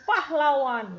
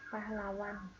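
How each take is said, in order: First: The word is said clearly and audibly. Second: The word is said faintly and hard to hear. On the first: The speaker calls it right. "tapi pahlawan misalnya kayak gitu ya" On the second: The speaker calls it wrong. "nggak kayak gini, ... nggak kedengeran"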